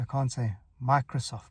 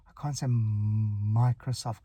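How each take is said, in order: First: Said in the usual way. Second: A long, held m before "Microsoft" comes out; "Microsoft" with a stuttered, drawn-out m; stuck on m. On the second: Shown as a demonstration. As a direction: block on the first m of "Microsoft", stretching it slowly. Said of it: "I'm getting stuck on the m".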